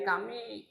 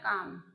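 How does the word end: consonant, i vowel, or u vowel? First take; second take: i vowel; consonant. First: The word ends with an i vowel. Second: The word ends on the m consonant. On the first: The speaker calls it wrong. "dibaca juga menjadi kami, salah" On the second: The speaker calls it right. "Selamanya juga dibacanya kam"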